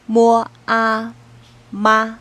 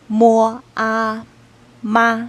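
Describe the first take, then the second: No difference in how they are said.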